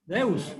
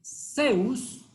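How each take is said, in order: First: "Deus" with a soft d in place of the z sound, said a little lower; softer Spain pronunciation. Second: Zeus with a plain Latin-American s, drawn out slowly; Zeus said plainly. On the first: Preacher showing how Spain says Zeus, soft Deus. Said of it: "Se pronuncia más suave". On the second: Preacher naming the god the congregation invokes, slow plain Zeus. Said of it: "se pronuncia Zeus". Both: Shown as a demonstration.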